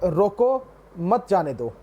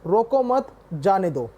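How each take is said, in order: First: The pause comes right after 'roko'. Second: The pause comes right after 'mat'.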